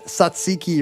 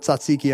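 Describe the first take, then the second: First: The word begins with a plain 's' sound. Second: The word begins with a 'ts' sound. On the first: The speaker calls it wrong. "Somebody said Satsiki or something" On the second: The speaker calls it right. "missed the "t" in one or one or two of the places"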